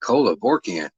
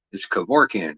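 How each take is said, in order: First: Kevorkian said with extra syllables, like ko-la-vor-kian; mispronounced name. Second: Kevorkian said cleanly as keh-VOR-kee-an; correct pronunciation. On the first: Correcting a viewer, imitating their garbled Kevorkian. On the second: Correcting a viewer's spelling, saying Kevorkian the right way. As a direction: give the right Kevorkian, plain and firm. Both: Shown as a demonstration. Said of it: "two or three too many syllables".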